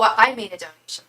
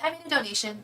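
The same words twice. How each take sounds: First: It is said insistently, as if expecting something. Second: It is said lightly, as a passing remark. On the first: The person expects to be served next. "like I'm next" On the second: The person is only mentioning it as a reminder. "like just reminding me"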